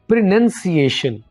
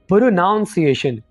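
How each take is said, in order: First: The second syllable sounds like 'nun'. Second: The second syllable sounds like 'noun'. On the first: The speaker calls it right. "सही तौर पर आप ऐसे बोलेंगे" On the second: The speaker calls it wrong. "इसको गलत बोल रहे होते हैं।"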